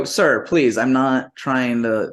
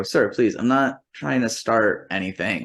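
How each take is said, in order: First: Slightly raised, earnest plea, slowing at the end; retold appeal to stay calm; polite pleading. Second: Restrained demo of a careful appeal; measured polite plea. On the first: Guest pleading with the motel clerk, polite. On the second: Shown as a demonstration. Guest calming the motel clerk, measured and polite. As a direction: re-enact a placating, even-voiced plea. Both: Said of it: "this is exactly how I say".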